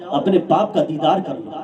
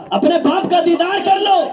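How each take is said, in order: First: Said in the usual way. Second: Raised plea. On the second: Acted. Brother begging sister, repeated plea.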